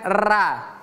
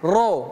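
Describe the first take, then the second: First: The r syllable is thin with an open vowel. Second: The r syllable is thick with a rounded vowel. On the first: The speaker calls it wrong. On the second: The speaker calls it right. "ro bukan ra"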